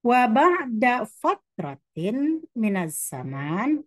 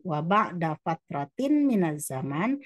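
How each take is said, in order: First: Slow, raised Arabic reading voice; formal Arabic text reading; slow recitation. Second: Said in the usual way. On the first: Shown as a demonstration. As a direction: recite the Arabic phrase slowly and clearly.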